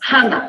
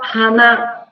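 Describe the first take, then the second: First: The first syllable has the higher pitch. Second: The second syllable has the higher pitch. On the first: "O ha é mais alto" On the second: "com na mais alto"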